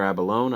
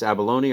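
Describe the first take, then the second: First: "abalone" said as AB-uh-lohn; "abalone" in three syllables, final e silent. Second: "abalone" said as ab-uh-LOH-nee; "abalone" in four syllables, ending -nee; abalone with final ee. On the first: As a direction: end "abalone" like the word "lone". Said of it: "I think it's abalone". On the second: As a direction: sound the last e of "abalone" as ee. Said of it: "I don't know if it's". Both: Shown as a demonstration.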